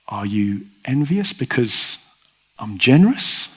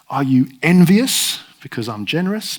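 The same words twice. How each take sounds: First: The stress falls on the word generous. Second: The stress falls on the word envious. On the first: The landowner's generosity is the point. The speaker calls it right. "but on his generosity" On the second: The workers are condemned as petty. The speaker calls it wrong. "not on their envy"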